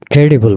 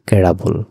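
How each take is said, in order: First: ক্রেডিবল said with an i in the middle, the common mistake; ক্রেডিবল the usual wrong way, kre-di-bol; wrong pronunciation shown. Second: ক্রেডাবল said with a schwa in the middle, kre-da-bol; ক্রেডাবল, not ক্রেডিবল; correct pronunciation. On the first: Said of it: "উচ্চারণটা ঠিক ক্রেডিবল না". (ভুল উচ্চারণ ক্রেডিবল) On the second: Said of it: "একটু আলাদা". (সঠিক উচ্চারণ ক্রেডাবল) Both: Shown as a demonstration.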